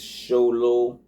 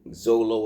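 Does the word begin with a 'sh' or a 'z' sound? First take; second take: sh; z. First: The word begins with a 'sh' sound. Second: The word begins with a 'z' sound. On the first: The speaker calls it right. "It's it's Sholo" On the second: The speaker calls it wrong. "You would think it's Zolo or something"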